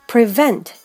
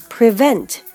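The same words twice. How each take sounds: Both takes have the same delivery.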